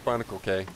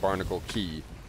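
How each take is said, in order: First: The last word rhymes with 'day'. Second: The last word rhymes with 'see'. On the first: The speaker calls it wrong. "I'm saying Barnacle K" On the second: The speaker calls it right. "apparently you pronounce it Barnacle Key"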